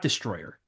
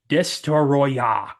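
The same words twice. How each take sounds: First: It sounds like the ordinary English word destroyer. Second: An extra vowel comes between the t and r. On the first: The speaker calls it wrong. "it's not Destroyer" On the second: The speaker calls it right. "It's spelled D E S T O R O Y A H"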